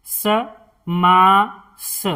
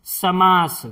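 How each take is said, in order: First: समास drawn out slowly, long मा; slow syllable by syllable. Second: Said in the usual way. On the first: Shown as a demonstration. Teacher spelling out a word for students, slowly. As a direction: stretch समास for learners. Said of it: "slow drawn-out demo". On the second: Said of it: "normal take".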